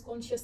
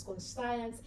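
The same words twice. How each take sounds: First: "conscious" as KON-shuss; pronounced "conscious". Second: "conscience" as kon-SIGH-ence; pronounced "conscience". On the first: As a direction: say "conscious" with a sh in the middle, short ending. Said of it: "Some people pronounce conscious". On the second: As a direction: say "conscience" with a long i, as in science. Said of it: "some people pronounce conscience". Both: Shown as a demonstration.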